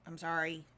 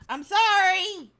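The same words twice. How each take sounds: First: It sounds half-hearted and unconvincing. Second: It sounds sincere and emphatic.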